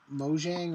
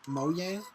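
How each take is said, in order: First: The name is said in a non-Swedish way. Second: The name is said in the Swedish way. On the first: This is how many people say it. "what a lot of people call Mojang" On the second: This is how it is supposed to be said. "That's actually the Swedish way to pronounce it"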